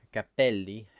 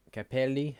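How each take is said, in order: First: Cappelli with the p held longer, cap-pel-li; held double p. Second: Capelli with a short single p, ca-pe-li. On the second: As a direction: keep the p in Capelli quick and short. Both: Shown as a demonstration. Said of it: "You have to hold double letters for longer".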